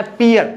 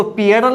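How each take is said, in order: First: "पियर" with the final L dropped; village-style "पियर", no L at the end; rustic short form. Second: PIYARAL, "पियरल", with a final L; "पियरल" with the L sounded at the end; full form not to read. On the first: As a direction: say "पियर", two syllables ending on R. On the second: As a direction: say "पियरल" ending in an -al syllable. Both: Shown as a demonstration. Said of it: "इसको पियरल नहीं पढ़ना है".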